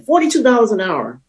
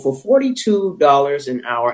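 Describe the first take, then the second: First: Forty-two said higher and hit hard; stress on Forty-two. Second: Said in the usual way. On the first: Shown as a demonstration. Speaker stresses his hourly wage, Forty-two hit hard. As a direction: lean on Forty-two dollars an hour. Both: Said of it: "I tell you the amount for this reason".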